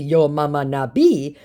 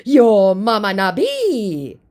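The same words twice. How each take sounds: First: Said in the usual way. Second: Slow, raised, loud impression; mock angry scammer. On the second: Scammer insulting the baiter's mother, mock angry. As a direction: stretch the insult in a put-on voice.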